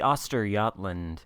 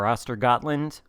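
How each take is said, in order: First: The name is said in a Swedish-like way. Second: The name is said in an anglicized way.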